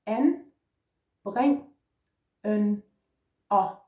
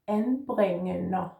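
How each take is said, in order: First: "En, breng, en, o" said one at a time with a pause after each; separated syllables. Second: "En, bringen, o" run together slowly as one word; joined up, slow. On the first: Teacher modelling the syllables one by one. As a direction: sound out each syllable on its own. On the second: Teacher slowly blending the syllables into the whole word. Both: Shown as a demonstration. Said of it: "Let's put those together".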